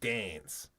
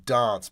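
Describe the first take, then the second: First: It is said in a Sydney-Melbourne Australian accent. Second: It is said in a British-like Adelaide accent. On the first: This is how people from other Australian cities say it. "Unlike Sydney and Melbourne, they would say" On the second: This is how the speaker's home city says it. "where I'm"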